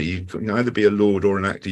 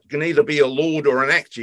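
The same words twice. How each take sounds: First: Said in the usual way. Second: Quoted spark's line. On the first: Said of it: "that little line stuck with me". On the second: Retold or imitated. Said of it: "He says".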